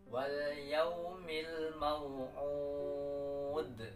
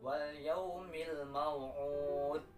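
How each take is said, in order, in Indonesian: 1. Huruf akhir d berakhir dengan gema memantul. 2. Huruf akhir d berhenti datar tanpa gema. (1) "memantul mau'ud" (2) "tidak ada kolkolah atau tidak memantul pada huruf dal"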